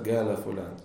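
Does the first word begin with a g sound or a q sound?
g sound. The first word begins with a g sound. "а говорят галя фулян"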